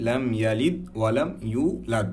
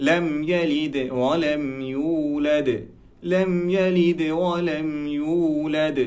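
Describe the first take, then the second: First: Said in the usual way. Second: Slow, the দ of ইউলাদ released with a light bounce like দে; qalqala on ইউলাদ. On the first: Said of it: "ব্যাপারটা এমন না". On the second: Shown as a demonstration. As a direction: correct reading, slow with a bounced দ. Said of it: "উচ্চারণটা হবে".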